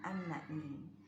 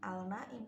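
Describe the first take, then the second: First: The L merges into a doubled N sound. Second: The L is pronounced clearly before the N. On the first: The speaker calls it right. "langsung masuk ke nunnya" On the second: The speaker calls it wrong. "bukan al-naim"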